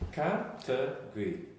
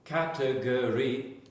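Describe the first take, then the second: First: One syllable is dropped from the word. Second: Every syllable of the word is said. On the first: "That's called elision" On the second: "instead of saying category"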